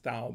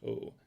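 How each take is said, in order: First: The word begins with a 'th' sound. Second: The word begins with a plain 't' sound. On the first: The speaker calls it wrong. "it looks, it says Thou" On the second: The speaker calls it right. "but it's pronounced Tau"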